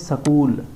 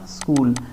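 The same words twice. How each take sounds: First: The word's sounds are altered from the usual form. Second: The word has its usual standard pronunciation. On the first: The speaker calls it wrong. "यहाँ पर गलत बोलते हैं" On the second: The speaker calls it right. "ऐसे होता है ना स्कूल"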